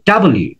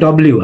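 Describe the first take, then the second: First: The letter is said as two words, 'double you'. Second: The letter is said as one clipped word, 'dobliu'. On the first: This is how it is really said. The speaker calls it right. "আসলে হচ্ছে ডাবল ইউ" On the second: This is how people usually say it. The speaker calls it wrong. "আমরা সাধারণত বলছি ডব্লিউ"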